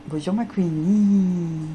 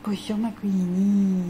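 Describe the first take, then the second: First: Drawn-out slow hello to the dog; slow sweet greeting. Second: Slow, higher cooing hello. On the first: Owner greeting her dog Queenie, slow and sweet. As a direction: stretch it out sweetly. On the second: Owner greeting Queenie again in a higher, slow coo. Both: Real, not acted.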